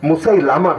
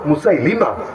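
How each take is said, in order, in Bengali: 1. তৃতীয় অক্ষরে 'a' স্বর আছে। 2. তৃতীয় অক্ষরে 'i' স্বর আছে। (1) "এটা ভুল উচ্চারণ" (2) "মুসাইলামা না মুসাইলিমা"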